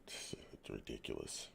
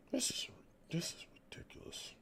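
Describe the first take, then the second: First: Said in the usual way. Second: Whispered under his breath in disbelief; disgusted whisper. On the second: Real, not acted. Fan whispering his disgust at the team. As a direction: breathe it out, too fed up to speak aloud.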